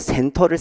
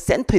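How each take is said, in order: First: The first consonant is plain and lax. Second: The first consonant is tense and hard.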